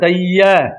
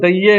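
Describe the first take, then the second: First: The final vowel is an open 'ai' sound. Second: The final vowel is a closed 'e' sound. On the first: The speaker calls it right. "ਮੂੰਹ ਖੋਲ ਕੇ ਬੋਲਣੀਆਂ ਦਲਾਵਾਂ ਐ" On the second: The speaker calls it wrong. "ਇਸ ਨੂੰ ਦਈਏ ਨਹੀਂ ਬੋਲਣਾ ਈੜੀ ਲਾ ਕੇ"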